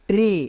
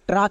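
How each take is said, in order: First: The vowel is a long 'ay' sound. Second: The vowel is a short 'a' sound. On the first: The speaker calls it right. "এর long sound হবে ট্রে" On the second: The speaker calls it wrong. "কিন্তু না"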